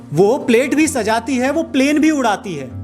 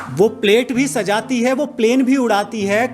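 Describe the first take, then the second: The two takes are said the same way.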